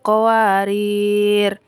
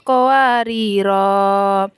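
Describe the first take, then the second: First: The final syllable after the r is short. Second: The final syllable after the r is long. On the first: The word runs straight on into the next verse. "jika qawariro yang pertama diwasol, maka ro dibaca pendek" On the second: The reciter stops after the word. "apabila diwaqaf, maka wajib dibaca panjang"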